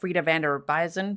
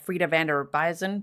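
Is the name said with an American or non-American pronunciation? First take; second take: American; American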